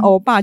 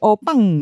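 First: It is said clearly in a normal voice. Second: It is said lisping and nasal, in a cutesy voice.

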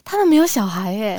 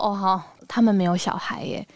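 First: It sounds upbeat, as if it is a choice. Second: It sounds pitying, as if something is missing.

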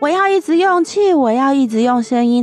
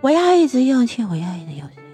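First: The voice stays full and strong throughout. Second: The voice weakens and fades toward the end.

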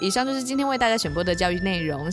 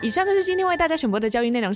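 First: The fast pace slows down partway through. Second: The fast pace is kept steady throughout.

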